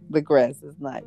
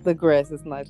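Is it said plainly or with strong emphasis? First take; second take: strong emphasis; plainly. First: It is said with strong, heavy emphasis. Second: It is said plainly, without extra emphasis.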